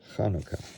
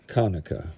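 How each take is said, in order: First: It begins with a soft throaty sound. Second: It begins with a plain, non-throaty sound. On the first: The speaker calls it right. "the C H is like in Bach, but somewhat softer" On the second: The speaker calls it wrong.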